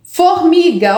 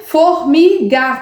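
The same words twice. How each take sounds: First: Said in the usual way. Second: Put-on Formiga stretched slowly, syllable by syllable as for a child; slow syllable-by-syllable sounding out. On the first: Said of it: "olha só, ela colocou". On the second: Shown as a demonstration. Teacher sounding out Formiga for pupils, slowly syllable by syllable. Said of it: "não fez o som do mi".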